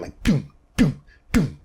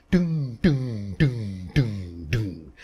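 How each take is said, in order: First: Short dead "doom" like a kick drum. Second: Ringing "doom" like a plucked string, fading out; plucked upright bass "doom", dying away; resonant bass pluck. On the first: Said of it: "kind of a dead sound". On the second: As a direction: let each "doom" ring and fade like a bass string. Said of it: "when you pluck the string of an acoustic bass". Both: Shown as a demonstration.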